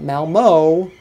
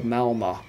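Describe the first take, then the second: First: "Malmo" with a long English oh ending; exaggerated English-style "Malmo"; anglicized pronunciation. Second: "Malmö" with a Swedish ö ending; "Malmö" said the local Swedish way; Swedish pronunciation. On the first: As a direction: hit "Malmo" loud with a drawn-out final oh. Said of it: "Not Malmo". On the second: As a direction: finish "Malmö" on ö rather than oh. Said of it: "Not Malmo, but Malmö". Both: Shown as a demonstration.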